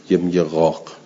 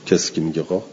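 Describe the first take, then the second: First: قاق said as a crow's caw, throaty ɣ; crow's قاق with a guttural start; crow caw word. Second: Said in the usual way. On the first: Shown as a demonstration. Teacher voicing the crow's cry for students, throaty caw.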